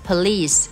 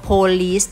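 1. เน้นเสียงที่พยางค์ที่สอง 2. เน้นเสียงที่พยางค์แรก (1) "เราต้องออกเสียงว่า police police นั้นหนักพยางค์ที่2" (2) "ไม่ออกเสียงว่า"

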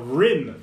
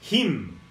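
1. A palavra começa com um som de R do inglês. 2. A palavra começa com um som de H. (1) "o R não tem som do H. Ele tem som de cachorro bravo" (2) "em vez de falar rim, falar him"

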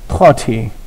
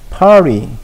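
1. t는 딱딱하고 r 발음이 없어요. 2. t는 굴린 r 뒤에 나오는 부드러운 탄음이에요. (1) "영국식은 딱딱하게 합니다. ... R 발음이 안 들어가" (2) "미국식. ... 진짜 날파리처럼"

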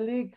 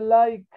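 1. La vocal es un sonido 'ih' corto. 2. La vocal es un sonido 'eye' largo. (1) "No se dice lick" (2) "se dice like"

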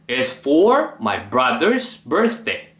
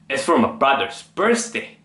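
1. 'for my'는 강세가 있고 또렷하게 발음돼요. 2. 'for my'는 강세 없이 아주 빠르게 발음돼요. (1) "이렇게 우리는 보통 소리를 내죠" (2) "강세를 넣지 않고 매우 빠르게 소리를 내고 있죠"

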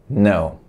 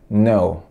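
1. A palavra começa direto com um som de n. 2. A palavra começa direto com um som de n.

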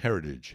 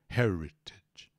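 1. A consoante do meio é um toque rápido, parecido com d. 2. A consoante do meio é um som de t bem claro. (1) "Quando você fala um pouco mais rápido no inglês americano, vira heritage" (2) "Esse T pode ser som de T mesmo"

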